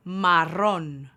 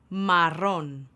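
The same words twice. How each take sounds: The two takes are said the same way.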